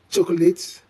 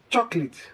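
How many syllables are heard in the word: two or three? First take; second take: three; two. First: The word is said with three syllables. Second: The word is said with two syllables. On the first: The speaker calls it wrong. "Many people add an extra syllable" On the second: The speaker calls it right. "The correct pronunciation to this word is chocolate"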